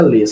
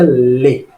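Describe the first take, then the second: First: The final s sound is pronounced. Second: The word ends on the vowel, no s. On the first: The speaker calls it wrong. "mas não pronuncia les" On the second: The speaker calls it right. "só pronuncia le"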